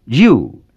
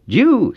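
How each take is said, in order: First: You on a Cantonese rising tone, meaning Lord. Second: You jumped very high, then falling, the wrong tone. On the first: Sister Tong modelling the correct tone for Lord, rising. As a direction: model You with a rise, like a teacher. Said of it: "If you say it as a rising tone, it means Lord". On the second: Struggling student answering the teacher, You high and falling. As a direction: blurt You high and let it drop. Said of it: "with a high falling tone". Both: A narrator's reading.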